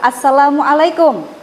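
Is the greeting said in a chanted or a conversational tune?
conversational. It is said with a normal speaking intonation. The speaker calls it right.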